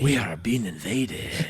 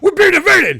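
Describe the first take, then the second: First: It is said in a sexy tone. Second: It is said in an angry tone.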